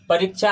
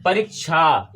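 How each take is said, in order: First: परीक्षा said as "pariccha", the k swallowed; everyday pronunciation. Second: परीक्षा said as "parik-sha", the half k sounded; hidden k sounded. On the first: Teacher shows the class how we usually say it, everyday pronunciation. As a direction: say परीक्षा with a chh sound and no clear k. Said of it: "हम ऐसे बोलते हैं". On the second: Teacher reveals the hidden half letter to the class, k sounded. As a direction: bring out the k before the sha in परीक्षा. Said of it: "इसमें का छुपा हुआ है". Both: Shown as a demonstration.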